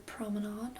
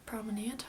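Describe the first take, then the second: First: First try at "Promenade", said softly; "Promenade" offered quietly as one possible pronunciation; unsure pronunciation. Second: Second try at "Promenade", said softly; "Promenade" offered quietly with a different ending; alternative pronunciation. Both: Real, not acted. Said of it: "however you like to say it".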